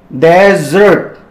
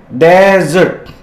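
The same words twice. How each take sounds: Both takes have the same delivery.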